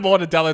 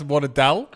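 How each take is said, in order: First: The word is said with all its syllables. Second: The word is said without its last syllable.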